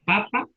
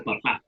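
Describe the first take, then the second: First: Papa as PApa, first pa high; papa stressed at the front; stress on first syllable. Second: Papá as paPÁ; papá stressed at the end; stress on last syllable. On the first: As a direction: punch the opening pa of papa. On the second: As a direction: punch the final pá of papá. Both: Shown as a demonstration. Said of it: "mayor intensidad".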